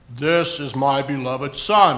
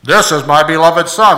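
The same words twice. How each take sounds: First: Low, slow try at a booming God voice that doesn't land; failed big voice. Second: Much louder, low booming voice of God from heaven; big voice. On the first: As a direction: reach for a big voice but fall short. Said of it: "I'm trying to do a big voice". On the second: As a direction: boom it out like God from the sky. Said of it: "Oh, that worked". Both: Shown as a demonstration.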